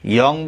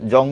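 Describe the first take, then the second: First: The syllable begins with a 'y' sound. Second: The syllable begins with a 'j' sound. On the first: The speaker calls it right. "সংস্কৃত উচ্চারণ ইয়ং বলতে" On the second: The speaker calls it wrong. "আমি জং বুলোরি"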